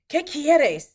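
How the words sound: The question sounds irritated and curt. The speaker feels bothered by the listener. The speaker calls it wrong. "Like they they're bothering you with that tone"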